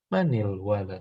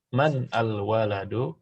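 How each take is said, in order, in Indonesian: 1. Vokal 'i' menyambungkan kedua kata. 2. Kata pertama berakhir dengan konsonan mati.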